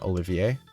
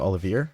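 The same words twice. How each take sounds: First: The name sounds unlike Oliver. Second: The name sounds close to Oliver.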